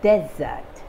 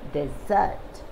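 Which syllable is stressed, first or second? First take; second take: first; second. First: The stress is on the first syllable. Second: The stress is on the second syllable. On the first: A dry land with little or no water. "as a noun, the stress is on the first syllable" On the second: To abandon or run away. "as a verb, the stress is on the second syllable"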